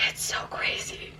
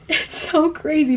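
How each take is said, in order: First: Breathy whispered aside. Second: Said in the usual way. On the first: Shown as a demonstration. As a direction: whisper it to yourself in awe.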